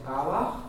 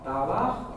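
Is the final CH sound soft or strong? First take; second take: soft; soft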